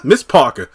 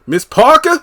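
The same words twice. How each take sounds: First: Said in the usual way. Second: Parker pitched high on a calling rise. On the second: Retold or imitated. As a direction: sing out Parker like hailing across the yard. Calling out to the neighbor.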